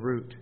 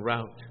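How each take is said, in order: First: The word is said in a Canadian way. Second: The word is said in an American way. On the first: "We're Canadians, we say the root" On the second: "Americans say the route of the trial"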